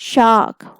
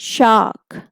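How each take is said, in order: Both takes have the same delivery.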